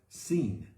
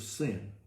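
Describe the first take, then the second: First: The name is said with Hebrew pronunciation. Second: The name is said with English pronunciation.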